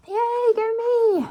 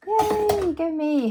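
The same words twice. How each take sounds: First: High, drawn-out cheer, slow; stretched triumphant "Yay, go me!" pitched high; big self cheer. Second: Little cheer. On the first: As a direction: celebrate yourself with a long high "Yay, go me!". Cheering a completed task. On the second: Cheering herself after a task. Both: Real, not acted.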